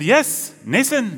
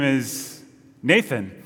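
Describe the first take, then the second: First: High-pitched mock Danish teacher, "Nathan" with an s for th; insistent fake Danish accent, "Nathan" as NAY-sun; bad Danish accent. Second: Said in the usual way. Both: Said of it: "that was not a good Denmark accent".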